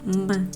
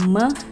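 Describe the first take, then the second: First: The syllable sounds muffled with the nose pinched. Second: The syllable has normal nasal resonance. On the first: "tiba-tiba hidung kita kita pe pecet gitu, me, me, me gitu kan kayak hilang" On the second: "kalau kita lagi mengucapkan me"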